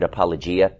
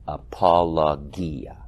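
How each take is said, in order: First: The word is pronounced the English way. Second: The word is pronounced the Greek way.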